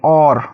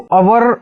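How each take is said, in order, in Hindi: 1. यह शब्द एक अक्षर में बोला जाता है। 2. यह शब्द दो अक्षरों में बोला जाता है। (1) "इसको और पढ़ेंगे" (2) "इसको अवर नहीं पढ़ेंगे"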